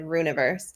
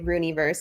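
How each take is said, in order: First: The word begins like the word rune. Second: The word begins like the name Rooney. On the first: "instead of Runiverse" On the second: "how I say Rooneyverse"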